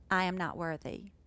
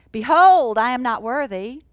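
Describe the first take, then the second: First: Quiet, humble "I am not worthy"; softly. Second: Loud, grand "Behold, I am not worthy"; proclaiming loudly. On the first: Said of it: "He said it softly". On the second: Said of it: "He didn't say". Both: Shown as a demonstration.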